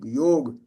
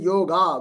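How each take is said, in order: First: The word ends in a consonant. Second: The word ends in a long vowel. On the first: "That's also wrong" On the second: "which is a long sound, which is not correct"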